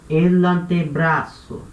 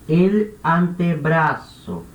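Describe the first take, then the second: The two takes are said the same way.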